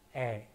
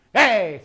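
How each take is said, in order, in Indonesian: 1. Vokal itu diucapkan dengan senyum yang santai dan tulus. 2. Vokal itu diucapkan dengan senyum yang kaku dan dipaksakan. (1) "Harus ikhlas tersenyumnya supaya bunyinya E aja bagus terdengarnya" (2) "nah itu tersenyum tidak ikhlas itu"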